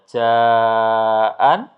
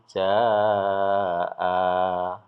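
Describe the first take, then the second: First: The word ends with an n sound. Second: The word ends on a lengthened a vowel. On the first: The reading continues without stopping. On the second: The reader stops at this word.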